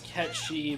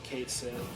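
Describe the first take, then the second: First: It sounds like the word catchy. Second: It sounds like Kate followed by sith. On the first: This is the original full pronunciation. "the full way you pronounce it is Catchy" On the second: This is the commonly used pronunciation. "everybody has just always said Kate Sith"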